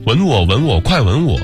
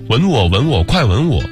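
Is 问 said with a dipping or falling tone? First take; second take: dipping; dipping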